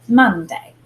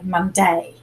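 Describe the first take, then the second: First: Monday with the first syllable stronger; Monday, emphasis up front on Mon; stress on MON. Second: Monday with the emphasis wrongly on day; Monday said with a strong final day; stress on DAY. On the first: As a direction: lean on Mon, let day fall away. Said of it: "we put a little more emphasis on". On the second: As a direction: lean on the second syllable, mon-DAY. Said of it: "We don't put the emphasis on day". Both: Shown as a demonstration.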